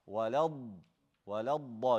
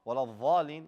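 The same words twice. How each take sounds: First: Walad da with a long, heavy d; dragged dad. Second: Dhalin opening on a buzzing th; wrong dha. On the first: Teacher corrects the dha, walad da with dragged dad. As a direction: hold the d in walad da before releasing it. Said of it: "You gotta drag the dad". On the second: Teacher imitates a common error, dhalin with a dha. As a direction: turn the ض into a dh in dhalin. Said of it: "It's not a dha". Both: Shown as a demonstration.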